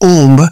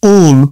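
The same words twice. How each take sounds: First: The final b sound is pronounced. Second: The final b sound is silent. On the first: The speaker calls it wrong. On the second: The speaker calls it right.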